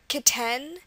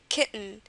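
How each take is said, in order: First: A clear vowel is heard between T and N. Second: Almost no vowel is heard between T and N. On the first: The speaker calls it wrong. "you don't say kitten" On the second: The speaker calls it right. "there is no vowel between the T and the N. You just say kitten"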